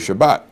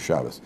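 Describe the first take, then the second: First: The word ends with a T sound. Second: The word ends with an S sound. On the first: The speaker calls it wrong. "some of you say Shabbat" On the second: The speaker calls it right. "the correct pronunciation is Shabbos"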